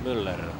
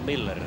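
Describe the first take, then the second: First: The first vowel is a rounded 'ü' sound. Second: The first vowel is a plain 'i' sound. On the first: This is the famous German player's name. The speaker calls it wrong. "eikä Müller" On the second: This is how the player wants his name said. The speaker calls it right. "Nimenomaan Miller"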